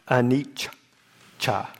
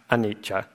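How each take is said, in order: First: The middle consonant is heavily drawn out. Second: The middle consonant is short and single. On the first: "if you were to really, overstress it" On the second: "not anicca"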